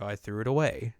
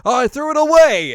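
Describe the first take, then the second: First: Said in the usual way. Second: Loud, high, overdone line read; hammed-up perky cartoon delivery; over-enthusiastic character voice. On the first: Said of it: "say what you just said again". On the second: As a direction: blast it out with too much enthusiasm. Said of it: "like, the character".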